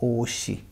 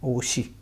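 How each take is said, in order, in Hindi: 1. बीच का व्यंजन s ध्वनि है। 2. बीच का व्यंजन s ध्वनि है।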